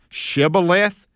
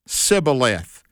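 First: The word begins with an sh sound. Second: The word begins with an s sound. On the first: The person saying it belongs to the team. "the members of the right team would say Shibboleth" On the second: The person saying it belongs to the enemy. "They'd say Sibboleth because they couldn't put the sh on the front part of it"

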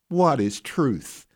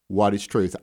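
First: It is said in a mocking, scornful tone. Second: It is said in a plain, neutral tone.

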